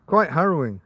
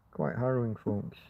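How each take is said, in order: First: Said in the usual way. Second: Dropped to a soft murmur; quiet. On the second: Real, not acted. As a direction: let it fade away quietly. Repeats phrase much softer.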